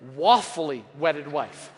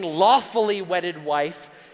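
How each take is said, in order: First: The first word begins with a W sound. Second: The first word begins with an L sound. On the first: The speaker calls it wrong. "he actually mispronounced a word" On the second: The speaker calls it right. "Instead of saying lawfully wedded wife"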